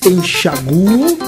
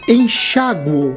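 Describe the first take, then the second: First: The stress falls on the vowel U. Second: The stress falls on the vowel A. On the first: "com o U tônico" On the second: "com o A tônico"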